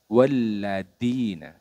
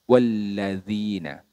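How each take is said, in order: First: The consonant is a hard stopped 'd' sound. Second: The consonant is a soft flowing 'th' sound. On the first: The speaker calls it wrong. "Kesalahannya seperti apa?" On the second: The speaker calls it right. "menggunakan huruf dzal"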